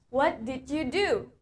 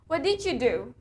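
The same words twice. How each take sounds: First: Did you is said in full, clearly separated. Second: Did you is reduced and run together.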